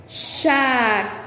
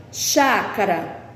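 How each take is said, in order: First: Chácara, slow, with the first syllable chá leaned on hard; stress on CHÁ. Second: Said in the usual way. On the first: Shown as a demonstration. Teacher showing pupils the strong syllable of Chácara, slow and stressed. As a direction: drag out Chácara and hit chá. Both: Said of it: "é o chá".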